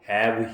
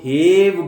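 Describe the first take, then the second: First: The vowel is short, like in 'cat'. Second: The vowel is long, like in 'take'. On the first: This is how the word is actually said. The speaker calls it right. "लेकिन हम इसको हैव ही बोलते हैं" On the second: This is what the spelling rule predicts. The speaker calls it wrong. "Rule कहता है कि इसको हेव बोला जाए, एक ही आवाज लंबी की जाए"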